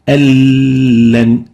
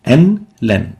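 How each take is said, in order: First: The n merges into a doubled l sound. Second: The n is heard separately before the l.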